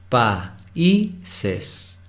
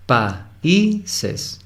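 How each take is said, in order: First: "Países" run together as PAI-ses; wrong stress. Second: "Países" as pa-Í-ses, the "í" lifted; stress on the i. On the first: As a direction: say "Países" as two syllables on "pai". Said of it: "no es países". ("Países" mal dicho, en dos sílabas) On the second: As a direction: pull the "í" of "Países" apart and up. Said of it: "Es decir, hay un hiato". (acento en la "í" de "Países") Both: Shown as a demonstration.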